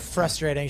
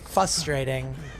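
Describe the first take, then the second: First: The word is said with its first R sound. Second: The word is said without its first R sound. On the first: This is the usual way to say it. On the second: This is how a former coworker said it.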